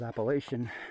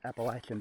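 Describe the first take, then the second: First: The word is said the northern way. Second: The word is said the local way. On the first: This is how people from elsewhere say it. The speaker calls it wrong. "Anybody that says Appalachian, well, they're not from around my part of the country" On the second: This is how people in the speaker's area say it. The speaker calls it right. "It is pronounced Appalachian, by the way"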